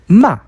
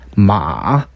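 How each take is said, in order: First: It is said with the fourth tone. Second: It is said with the third tone. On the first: It means to scold. "꾸짖다" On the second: It means horse. "말"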